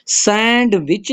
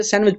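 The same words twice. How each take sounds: First: सैंडविच said with the d sounded, "sand-wich"; wrong pronunciation with d. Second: सैंडविच said with the d silent, "san-wich"; correct silent d. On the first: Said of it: "सैंडविच नहीं पढ़ते हम". (सैंडविच में d बोलकर, गलत तरीका) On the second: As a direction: drop the d in सैंडविच. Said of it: "सैंड नहीं पढ़ते". (सैंडविच, d को साइलेंट रखकर) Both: Shown as a demonstration.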